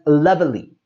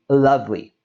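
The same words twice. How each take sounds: First: The middle E sound is pronounced. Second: The middle E sound is dropped. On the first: The speaker calls it wrong. "a common tendency to pronounce this as lovely" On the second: The speaker calls it right. "We drop that E and we say lovely"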